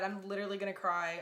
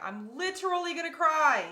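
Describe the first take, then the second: First: Said in the usual way. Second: High, loud emotional squeal; real burst of overwhelmed emotion, pitched way up; overwhelmed, near tears. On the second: Real, not acted. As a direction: wail it, overcome and much higher.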